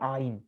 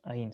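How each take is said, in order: First: It starts with a strong throat consonant. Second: It is said as a plain vowel A. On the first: "ce sera vraiment aïn" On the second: This is how modern Hebrew speakers say it. "Tu n'entendras pas juste aïn"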